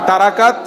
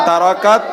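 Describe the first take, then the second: The two takes are said the same way.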